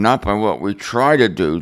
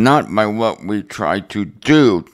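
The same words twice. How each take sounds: First: The word try carries the main stress. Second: The word do carries the main stress. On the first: The speaker calls it right. "I would have emphasized the word try" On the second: The speaker calls it wrong. "not the word do"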